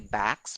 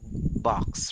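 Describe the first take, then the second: First: The vowel is a flat 'a' sound. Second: The vowel is an open 'o' sound. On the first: The speaker calls it wrong. "a lot of people would say backs" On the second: The speaker calls it right. "That's a very common mispronounced word"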